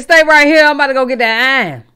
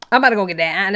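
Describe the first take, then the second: First: Louder and higher, fast, hammed-up tough-guy warning; imitating a street threat, pushed up and rushed; mock Charlotte threat. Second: Said in the usual way. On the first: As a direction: play a Charlotte hothead about to grab a gun, quick and loud.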